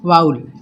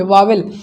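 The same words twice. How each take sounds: First: वाउल gliding as 'vow-ul', no second 'v'; correct pronunciation. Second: वावेल with a second 'v' and 'el' ending; wrong pronunciation. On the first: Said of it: "अब हम लोग पढ़ेंगे इसको वाउल". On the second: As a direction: say वावेल as 'vaa-vel'. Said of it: "इसको वावेल नहीं पढ़ेंगे". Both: Shown as a demonstration.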